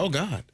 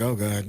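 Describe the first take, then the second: First: It sounds thrilled and excited. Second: It sounds dismayed and exasperated.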